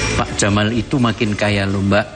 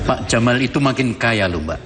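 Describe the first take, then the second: First: It is read plainly without any character emotion. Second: It is voiced with a protagonist character's emotion. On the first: "tanpa interpretasi. Saya baca begitu aja" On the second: "dengan emosi tokoh protagonis"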